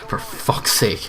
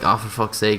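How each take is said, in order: First: It is said angrily, aimed at someone. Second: It is muttered quietly to oneself.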